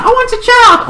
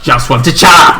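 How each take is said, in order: First: Very high, squeaky demand; mock high-pitched plea; insistent wail. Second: Said in the usual way. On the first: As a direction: whine it high like a pleading kid.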